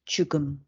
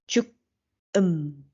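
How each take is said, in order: First: The final consonant links into the next syllable. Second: The syllables are said separately, with no linking. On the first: The speaker calls it right. "We should read" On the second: The speaker calls it wrong. "We shouldn't read"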